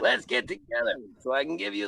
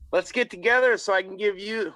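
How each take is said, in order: First: It is said in an assumed character voice. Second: It is said in the speaker's ordinary voice.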